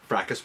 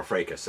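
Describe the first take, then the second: First: Fracas said as "FRACK-us"; first pronunciation variant. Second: Fracas said as "FRAY-kus"; alternative pronunciation. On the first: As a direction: say Fracas with a short "a", as in "crack". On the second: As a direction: say Fracas with a long "ay", as in "day". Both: Shown as a demonstration. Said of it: "as you prefer".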